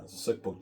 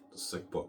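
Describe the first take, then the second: First: Said in the usual way. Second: Whisper. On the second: Shown as a demonstration.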